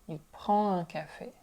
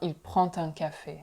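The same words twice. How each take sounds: First: The final consonant of prend stays silent. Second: The final consonant of prend links to un. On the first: The speaker calls it right. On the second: The speaker calls it wrong.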